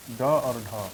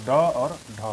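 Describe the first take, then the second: First: Said in the usual way. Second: ड और ढ said again louder, each letter hit firmly; emphatic repeat. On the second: Shown as a demonstration. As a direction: repeat ड और ढ with a firm louder push on both letters. (ड और ढ को ज़ोर देकर दोबारा बोलें) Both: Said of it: "हम लोग ड भी लिखते हैं".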